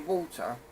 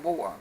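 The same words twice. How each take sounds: First: It is said in a standard, non-London accent. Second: It is said in an East London accent. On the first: This is how other people say it. "people say water" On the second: This is how the speaker says it. "I don't. I say water"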